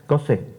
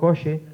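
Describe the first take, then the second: First: The middle consonant is a hissing 's'-like sound. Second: The middle consonant is a plain 'ch' sound.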